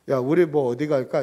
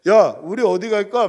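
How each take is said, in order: First: It is spoken in a normal, conversational voice. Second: It is loudly projected like stage acting. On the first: "이래도 될 건데" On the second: "연극 발성하듯이"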